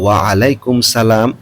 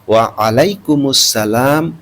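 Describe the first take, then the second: First: The 'us' sound before salam is dropped. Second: The 'us' sound links into salam. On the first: The speaker calls it wrong. "যা স্পষ্টতই ভুল।" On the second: The speaker calls it right. "সঠিক বাক্যটি হচ্ছে"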